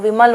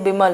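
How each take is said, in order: First: The word begins with a v sound. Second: The word begins with a b sound. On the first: The speaker calls it right. "विमल होता है" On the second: The speaker calls it wrong. "ना कि ये बिमल होता है"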